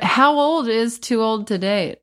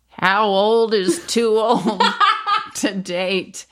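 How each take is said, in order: First: It is said in the speaker's own normal voice. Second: It is said in a put-on old woman's voice.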